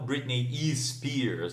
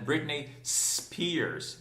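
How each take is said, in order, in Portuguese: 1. Um som de vogal extra vem antes de Spears. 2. Spears começa direto com o som de s. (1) "e não" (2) "Não tem izinho"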